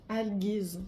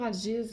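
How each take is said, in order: First: The g is pronounced hard, as in gift. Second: The g is pronounced soft, like a j. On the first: The speaker calls it right. "Ça se dit avec un, un G. G U" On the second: The speaker calls it wrong. "moi je dis toujours Algiz, là, mais"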